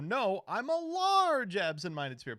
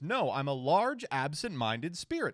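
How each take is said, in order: First: The word 'large' carries the main stress. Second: The word 'large' does not carry the main stress. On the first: The speaker calls it right. "the stress should be on the large. You go" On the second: The speaker calls it wrong. "But he goes"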